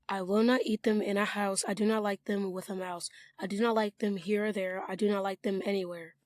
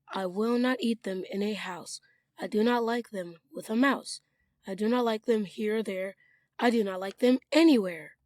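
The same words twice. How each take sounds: First: It is read fast without much expression. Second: It is read smoothly with storytelling expression.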